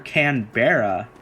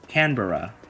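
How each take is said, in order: First: The last part sounds like 'barra'. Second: The last part sounds like 'burra'. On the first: The speaker calls it wrong. "I used to call her Canberra" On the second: The speaker calls it right. "the Barra part is not not Barra, it's Burra"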